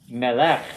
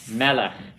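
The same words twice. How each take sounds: First: The stress is on the last syllable. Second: The stress is on the first syllable. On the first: The speaker calls it wrong. "It's not melech" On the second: The speaker calls it right. "another one accented on the first syllable"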